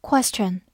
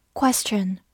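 First: Said in the usual way. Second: Whispered repeat. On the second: Shown as a demonstration. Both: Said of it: "复习一下今天学过的单词".

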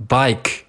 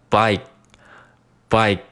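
First: Said in the usual way. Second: "bike" stopped short, k held back; unreleased K. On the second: Shown as a demonstration. Teacher drilling learners, slow "bike" with unreleased k. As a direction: cut "bike" off before the k bursts. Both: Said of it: "这个k失去爆破".

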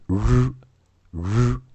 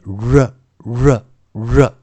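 First: "r" as a bare held consonant, no schwa after it; IPA r. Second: "r" as ruh, r closed by a short schwa; phonics r. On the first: Teacher first reads the IPA symbol, bare drawn-out r. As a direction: hold each "r" slowly as rrr, without a vowel. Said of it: "我们先念国际音标中的". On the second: Teacher shows the phonics method, r said as ruh. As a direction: give each "r" slowly and separately as ruh. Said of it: "用音素的教学法，". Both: Shown as a demonstration.

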